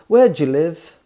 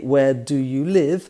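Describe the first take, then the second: First: 'Do you' runs together into one sound, 'Jew'. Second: Each word is said separately and clearly. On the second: "no native speaker would say"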